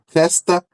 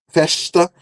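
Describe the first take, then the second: First: The consonant before the t is an s sound. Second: The consonant before the t is a sh sound. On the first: "pode pode ser com som de S" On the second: "com som de che"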